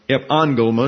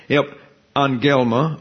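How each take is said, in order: First: "angelma" stressed at the front, AN-gel-ma; stress on third-last syllable. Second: "angelma" stressed in the middle, an-GEL-ma; stress on second-last syllable. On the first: Teacher corrects the Greek word, stressing AN in "angelma". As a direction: hit AN in "angelma", keep "gel" weak. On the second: Teacher slips on a Greek word, second-last syllable of "angelma" stressed. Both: Shown as a demonstration. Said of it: "emphasize the second to last syllable".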